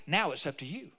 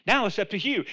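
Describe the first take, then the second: First: Low, softened challenge; quiet. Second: Said in the usual way. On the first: Real, not acted. Preacher leaves the choice to the congregation, quietly. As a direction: hand it over gently and low.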